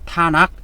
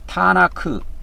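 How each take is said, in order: First: The word ends with a clipped final k. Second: The word ends with a released k and vowel. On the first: "키읔 발음이 밑에 가서 받침으로 붙어갖고" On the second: "타나크 그렇게 에, 이렇게 불러요"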